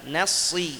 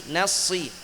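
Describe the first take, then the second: Both takes have the same delivery.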